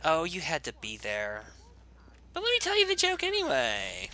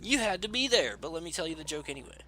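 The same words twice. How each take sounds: First: Hammed-up valley girl, shooting up very high; exaggerated valley girl squeal on the second half. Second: High-pitched mock valley girl. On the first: Player repeating his joke line, exaggerated valley girl. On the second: Player acting out a joke line, mock valley girl. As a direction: put on a valley girl voice, quick at the end. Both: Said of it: "I'm such a valley girl".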